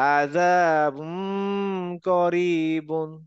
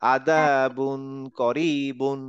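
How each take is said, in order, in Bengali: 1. k-এর আগের n লুকানো ও নাসালাইজড হয়। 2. k-এর আগের n স্পষ্টভাবে উচ্চারিত হয়। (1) "নজাল দিয়ে নাকের ভিতরে আনবো, একটু অনেশ্বর টাইপের" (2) "ক্লিয়ার ইধার টাইপের উচ্চারণ"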